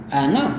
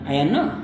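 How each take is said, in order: First: The phrase is mumbled lazily, barely articulated. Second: The same.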